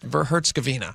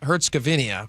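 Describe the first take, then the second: First: The name ends simply in -ina. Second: The name ends with an extra -ia sound. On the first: The speaker calls it right. "there's no I A at the end of it. It's just Herzegovina" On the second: The speaker calls it wrong. "but that, that's not it"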